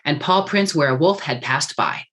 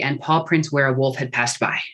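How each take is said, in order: First: The voice stays full and strong to the end. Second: The voice fades out, running short of breath. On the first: The speaker calls it right. "that sentence is powerful all the way through" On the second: The speaker calls it wrong. "I get a little out of breath because I don't stop"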